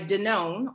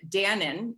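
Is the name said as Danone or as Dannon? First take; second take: Danone; Dannon. First: The name is said as Danone. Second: The name is said as Dannon.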